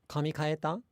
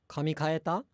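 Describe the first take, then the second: Both takes have the same delivery.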